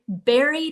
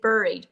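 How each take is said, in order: First: The first syllable sounds like 'berry'. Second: The first syllable does not sound like 'berry'. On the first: The speaker calls it right. "It sounds just like a strawberry" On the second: The speaker calls it wrong. "I wanted to say buried"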